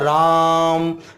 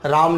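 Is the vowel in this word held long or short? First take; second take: long; short. First: The vowel is stretched for about three beats. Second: The vowel is held for a normal length. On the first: "ये त्रिमात्रिक है तो तीन मात्रा जितना समय लेना है" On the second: "राम नहीं बोलूंगा"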